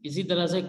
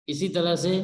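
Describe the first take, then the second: The two takes are said the same way.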